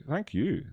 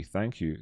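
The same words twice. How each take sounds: First: High thank you. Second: Said in the usual way. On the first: Real, not acted. Streamer thanks the viewer again, much higher. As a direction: thank you jumped up high and sing-song.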